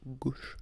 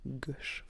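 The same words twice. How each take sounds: First: "gauche" with a closed O, as in "gau"; careful try at "gauche" with rounded O; attempted closed O. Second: "Gauche" with an open O, like "gosh"; accented open-O "Gauche"; own accent. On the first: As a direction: aim for a long closed "oh" in "gauche". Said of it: "J'arrive pas à dire gau". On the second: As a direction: say "Gauche" with the short open vowel. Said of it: "Moi, je dis à gauche". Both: Shown as a demonstration.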